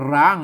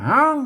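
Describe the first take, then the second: First: The word begins with an r sound. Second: The word begins with an h sound. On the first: This is the Central Thai form. "ไทยอ่านว่าร้าง" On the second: This is the Northern Thai form. "เมืองอ่านว่าห้าง"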